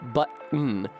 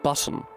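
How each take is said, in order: First: The middle consonant is a glottal stop. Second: The middle consonant is a clear t sound. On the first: "This fucking glottal stop" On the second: "in R P would be like button"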